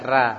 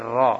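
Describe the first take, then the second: First: The r is pronounced thin and light. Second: The r is pronounced thick and heavy. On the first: The speaker calls it wrong. "tidak bisa dibaca tipis, dia tidak dibaca ra" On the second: The speaker calls it right. "tapi ra"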